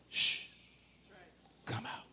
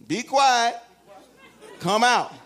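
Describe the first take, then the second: First: Very soft hushed command; quiet hush. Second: Calm command. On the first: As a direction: shush the spirit out gently. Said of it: "Jesus mostly only said". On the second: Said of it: "Jesus just said". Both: Acted.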